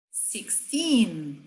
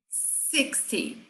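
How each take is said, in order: First: "sixteen" with long, stressed second syllable; stress on TEEN. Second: "sixty" with strong first syllable, soft final -ty; stress on SIX. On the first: Teacher contrasting side by side, stress on TEEN. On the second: Teacher contrasting side by side, stress on SIX. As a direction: hit the SIX of "sixty", drop the -ty. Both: Shown as a demonstration. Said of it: "lado a lado".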